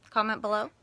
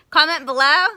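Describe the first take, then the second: First: Said in the usual way. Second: Below said loud with a rise. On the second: Shown as a demonstration. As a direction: shout Comment below, rising on below. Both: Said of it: "Is that what we do?".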